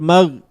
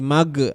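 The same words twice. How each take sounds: First: The final consonant is held still, without a bounce. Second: The final consonant is released with a bouncing echo. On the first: The speaker calls it right. "jangan sampai kita pantulkan bacaannya" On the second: The speaker calls it wrong. "dibaca qalqalah... itu salah"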